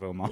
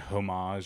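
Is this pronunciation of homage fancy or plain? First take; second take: plain; fancy. First: The word is said in a plain, ordinary way. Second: The word is said in a fancy, affected way. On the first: The speaker is using the everyday form. The speaker calls it right. "instead of homage" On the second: The speaker is trying to sound sophisticated. The speaker calls it wrong. "Kind of like saying homage"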